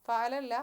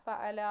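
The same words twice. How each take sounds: First: Said in the usual way. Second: ഫഅല with the last "a" drawn out long; slow ഫഅല ending on a held "aa"; long final vowel. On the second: Shown as a demonstration. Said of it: "അലിഫുൽ ഇസ്നൈനി".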